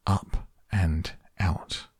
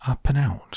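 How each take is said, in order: First: UP, AND, OUT slowly, word by word; deliberate label reading. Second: "Up and out" quicker and higher, run together; puzzled echo. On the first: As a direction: read out "Up and out" slowly with gaps between words. Narrator reads the button label. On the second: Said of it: "thought Charlie". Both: A narrator's reading.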